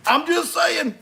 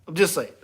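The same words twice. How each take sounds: First: 1 teasing singsong. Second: Said in the usual way. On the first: Real, not acted.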